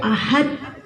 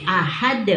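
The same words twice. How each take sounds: First: "Ahad" with an overdone breathy H, laughing; mock wrong reading. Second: "Ahad" said lightly, tongue lifted straight away; just say "Ahad" quickly and lightly; correct light reading. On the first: Teacher mocking students who overdo the H, laughing. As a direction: exaggerate the H in "Ahad". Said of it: "Sampai pakai H gitu ya". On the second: Teacher showing the easy correct way, light. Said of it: "Langsung aja". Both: Shown as a demonstration.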